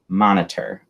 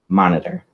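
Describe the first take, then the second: First: Every syllable is said clearly and in full. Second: It is said quickly with syllables squeezed together. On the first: "The pronunciation is monitor" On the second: "when you're speaking quickly, it might be monitor"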